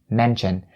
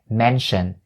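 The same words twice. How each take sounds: First: The middle consonant is a sharper 'ch' sound. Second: The middle consonant is a soft 'sh' sound. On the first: This is how most North Americans say it. "They turn the sh sound into the ch sound and they say mention" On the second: This follows the dictionary pronunciation. "I didn't say mention, mention, because mention is the way that the dictionary suggests"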